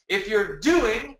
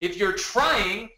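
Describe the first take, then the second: First: Slow, with DOING drawn out and rising; slow stress on doing. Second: Slow, with TRYING drawn out and rising; slow stress on trying. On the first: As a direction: lean into doing. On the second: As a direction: lean into trying. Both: Shown as a demonstration. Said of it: "It's time to do".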